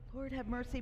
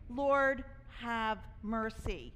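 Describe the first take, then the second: First: It is said quietly and without force. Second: It is said loudly and with force. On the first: The plea is kept private and held back. The speaker calls it wrong. "Not just like" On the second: The plea is made openly for others to hear. The speaker calls it right. "but like put it out there"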